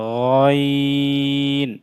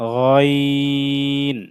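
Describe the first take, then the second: The two takes are said the same way.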